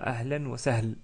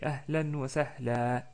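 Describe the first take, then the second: First: The last word ends on a bare consonant. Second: The last word ends in a long a. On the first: The speaker calls it wrong. "On ne dit pas ahlan wa sahl" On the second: The speaker calls it right. "on s'arrête avec un prolongement de fatha"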